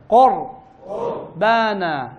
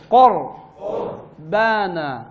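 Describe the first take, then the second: Both takes have the same delivery.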